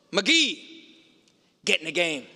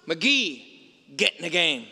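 First: Lightly put-on Brooklyn coach, barking the name; a hint of a gruff Brooklyn coach calling his player; guttural Brooklyn voice. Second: Guttural Brooklyn voice. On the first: Coach Lombardi calls McGee off the bench, in a mild gruff Brooklyn voice. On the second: Retold or imitated. Coach Lombardi repeats his order to McGee, in a mild gruff Brooklyn voice. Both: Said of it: "in that kind of guttural Brooklyn voice".

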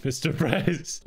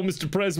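First: Said in the usual way. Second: Swaggering homie voice, a touch higher; cocky music advisor. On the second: Acted. Beanie Bro hailing the president, swaggering homie voice. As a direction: greet the boss like your best buddy.

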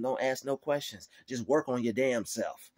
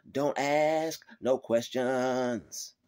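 First: Firm command at normal pace; God's stern word. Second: Slow, drawn-out stern command; God's stern word. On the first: God ordering complainers to work, firm. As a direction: tell them straight. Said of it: "God's telling them". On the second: God telling complainers, slow and stern. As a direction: lay down the law, very slowly. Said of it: "God is telling them". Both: Retold or imitated.

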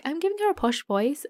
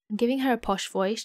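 First: Higher, lightly imitating herself; lightly mocking retelling of own words; mock self-quote. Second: Said in the usual way. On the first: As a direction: quote yourself in a raised, teasing voice. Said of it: "I'm like".

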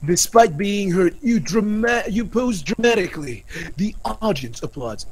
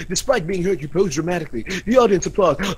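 First: Said in the usual way. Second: Hurried read of a repeated line; quick, perfunctory recital; rushed. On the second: Acted. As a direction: rattle it off without lingering. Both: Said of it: "I'm rushing it".

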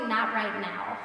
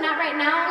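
First: Said in the usual way. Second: "Not right now" louder, rising at the end, airy dismissal; worse not right now. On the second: Shown as a demonstration. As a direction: brush it off lightly with a lift on "now". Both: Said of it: "Or even worse than".

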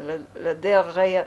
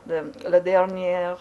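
No difference in how they are said.

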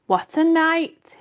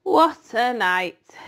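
First: High, slow and hoarse. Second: Slow, drawn-out husky rat. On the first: Templeton repeats to the animals, hoarse and slow. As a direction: rasp it out, dragging each word. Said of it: "repeated hoarsely". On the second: Templeton sighs over his night of feasting, husky. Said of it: "he said in a husky voice". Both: Acted.

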